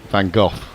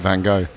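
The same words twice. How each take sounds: First: The name is said with an English pronunciation. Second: The name is said with an American pronunciation. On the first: "the anglicised version would be" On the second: "Americans tend to pronounce it"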